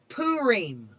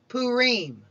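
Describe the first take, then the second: First: It is pronounced the Eastern Jewish way. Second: The same.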